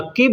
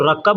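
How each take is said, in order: First: The vowel after the double k is i. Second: The vowel after the double k is a. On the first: "काफ के नीचे ज़ेर लगा कर बोलेंगे तो रक्किब हो जाएगा" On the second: "काफ के ऊपर अगर ज़बर लगा के बोलेंगे तो रक्कब हो जाएगा"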